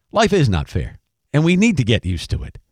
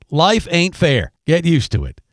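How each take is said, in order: First: Said in the usual way. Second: Slow Southern drawl of a coach. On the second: Retold or imitated. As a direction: imitate a coach's drawn-out Southern accent. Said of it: "the Southern drawl and the whole thing".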